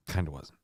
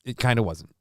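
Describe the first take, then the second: First: Lower, softer muttered repeat. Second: Said in the usual way. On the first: Real, not acted. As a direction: mutter it to yourself. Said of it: "repeat lower, softer". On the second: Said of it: "repeat muttered".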